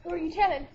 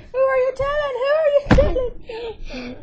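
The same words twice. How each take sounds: First: Said in the usual way. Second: Loud, high, furious demand; angry yell. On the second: Real, not acted. Repeated question, now yelling.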